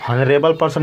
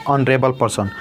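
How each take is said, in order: First: "ऑनरेबल" begun with an audible H, "honrebal"; wrong pronounced H. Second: "ऑनरेबल" starting on the open "o" vowel; silent H. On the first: Teacher rejecting a misreading, "ऑनरेबल person" with H sounded in front. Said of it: "ऑनरेबल person नहीं". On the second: Teacher giving students the correct reading, "ऑनरेबल person" with silent H. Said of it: "इसमें पढ़ेंगे ऑनरेबल person". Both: Shown as a demonstration.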